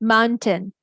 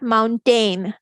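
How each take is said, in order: First: Only the first syllable is stressed; the second is reduced. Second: Both syllables are stressed with full vowels. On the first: The speaker calls it right. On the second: The speaker calls it wrong.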